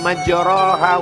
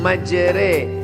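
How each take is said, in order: First: The vowel after r is a plain open a. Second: The vowel after r is tilted toward e. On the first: The speaker calls it wrong. "Dia tidak dibaca" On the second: The speaker calls it right. "tapi majre, miring, condong"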